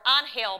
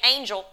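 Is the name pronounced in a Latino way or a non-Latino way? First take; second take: Latino; non-Latino. First: The name is said with a Latino pronunciation. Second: The name is said without a Latino pronunciation. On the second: "I'm going to say Angel"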